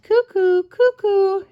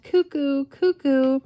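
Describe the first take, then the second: First: High, louder cuckoo call; cuckoo call imitation. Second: A milder, less high cuckoo call; just hint at the cuckoo; light cuckoo imitation. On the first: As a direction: sing out cuckoo up high and loud. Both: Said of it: "I'm not very good at bird sounds".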